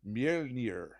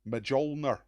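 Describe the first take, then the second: First: The name is said with Norse-style sounds. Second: The name is read plainly as English spelling. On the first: "I think" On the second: "if you're just going to read it how it is"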